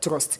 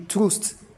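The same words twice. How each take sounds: First: The vowel is a short open 'uh' sound. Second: The vowel is a rounded 'oo' sound. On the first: The speaker calls it right. "but instead we said trust. So it means that that you will be Welch" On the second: The speaker calls it wrong. "it's supposed to be trust based on the default pronunciation"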